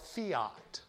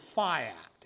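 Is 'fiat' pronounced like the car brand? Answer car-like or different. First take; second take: car-like; different. First: It is pronounced like the car brand. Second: It is not pronounced like the car brand. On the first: The speaker calls it wrong. "you'll hear some call it fiat, which is actually the name of a brand of make of car" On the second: The speaker calls it right. "Technically, the correct pronunciation is fiat"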